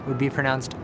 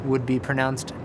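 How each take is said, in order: Both takes have the same delivery.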